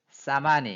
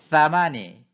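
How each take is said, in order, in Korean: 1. 그냥 쉭쉭거리는 s로 시작합니다. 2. th로 시작합니다. 혀끝을 윗니와 아랫니 사이에 댑니다. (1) "쌍시오처럼 사마니" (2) "혀끝을 물고 해야 되는"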